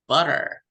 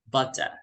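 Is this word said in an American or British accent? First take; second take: American; British. First: It is said in an American accent, T like D. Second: It is said in a British accent, clear T. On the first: "In American, it would sound like D"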